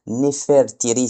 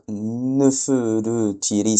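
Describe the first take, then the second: First: "Nefertiri" said smoothly and clearly as ne-fèr-ti-ri; the easy flowing version of "Nefertiri"; easy smooth pronunciation. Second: "Nefertiri" dragged out slowly and stumbling, as /nəfødøtiri/; clumsy hard pronunciation. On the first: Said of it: "c'est plus facile à dire". (« Nefertiri » fluide et net, né-fèr-ti-ri) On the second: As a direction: show how awkward "Nefertiri" feels in the mouth. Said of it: "c'est dur à dire". (« Nefertiri » traîné, prononcé maladroitement) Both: Shown as a demonstration.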